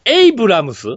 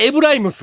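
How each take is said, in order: First: The name is said as 'Ei-bu-ra-mu-su'. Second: The name is said as 'E-bu-rai-mu-su'. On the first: The speaker calls it right. "ちゃんと言わなあかんな" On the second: The speaker calls it wrong. "名前を間違ってる"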